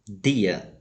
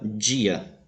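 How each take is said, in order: First: The d is said with a clean explosive sound. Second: The d is said with a hissing sound. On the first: "o som é explosivo" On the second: "o som é chiado"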